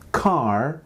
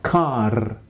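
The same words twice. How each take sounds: First: The final r is smooth and untrilled. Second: The final r is tapped or trilled. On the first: "instead of saying car" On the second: "you're going to say car"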